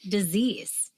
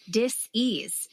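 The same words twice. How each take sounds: First: Said in the usual way. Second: Dis-ease, said as two parts, dis then ease; split dis-ease. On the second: Shown as a demonstration. Podcast guest splitting the word, dis-ease, in two.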